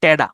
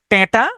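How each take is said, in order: First: "টেডা" the regional way, d replacing t; regional pronunciation. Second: "টেঁটা" with a hard t in the second syllable; "টেঁটা" in standard form, clear second t; standard Bangla pronunciation. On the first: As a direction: say "টেডা" as te-da, dialect style. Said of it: "আঞ্চলিক হয় সেটার উচ্চারণ". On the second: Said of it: "শুদ্ধ বাংলায় হচ্ছে". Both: Shown as a demonstration.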